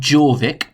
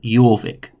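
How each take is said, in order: First: The name begins with a J sound. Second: The name begins with a Y sound. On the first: The speaker calls it wrong. "It looks like Jorvik" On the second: The speaker calls it right. "we pronounce the J like a Y"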